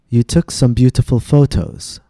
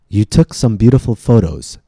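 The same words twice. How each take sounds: First: The middle Ts are crisp, clear T sounds. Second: The middle Ts are tapped, sounding like a D. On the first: The speaker calls it wrong. "notice how we did not say" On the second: The speaker calls it right. "some T's sound more like a D than T"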